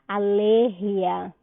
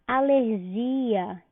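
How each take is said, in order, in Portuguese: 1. A tônica cai onde o espanhol a coloca. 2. A tônica cai onde o português a coloca.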